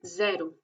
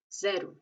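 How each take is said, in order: First: "Cero" with a z start; Portuguese zero. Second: "cero" ending seh-roo; final O as U. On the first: Teacher models Portuguese zero. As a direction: say "Cero" as zeh-ro. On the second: Teacher repeats zero with u ending. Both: Shown as a demonstration. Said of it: "y se dice U".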